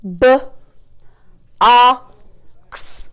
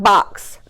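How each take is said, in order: First: "B-, ox" split with long gaps; chopped word. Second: Said in the usual way. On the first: Shown as a demonstration. Teacher chopping a word for pupils, sounds split apart. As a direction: chop BOX sound by sound. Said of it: "let's chop". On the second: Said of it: "Let's do the word box".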